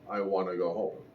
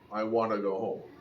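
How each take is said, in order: No difference in how they are said.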